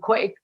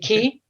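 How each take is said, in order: First: The word sounds like 'kway'. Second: The word sounds like 'key'. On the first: The speaker calls it wrong. "I'm going to say it wrong" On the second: The speaker calls it right. "Is it Key?"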